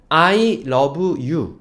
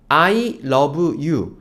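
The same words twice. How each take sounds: No difference in how they are said.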